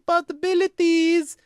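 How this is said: It is said with an exaggerated Russian accent. "she tries to really phone in the Russian accent"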